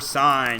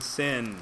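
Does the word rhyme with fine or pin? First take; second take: fine; pin. First: The word rhymes with fine, long vowel. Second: The word rhymes with pin, short vowel. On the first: The speaker calls it right. "It is short for sine" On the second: The speaker calls it wrong. "When you sound it out, it makes the word sin. It is not sin"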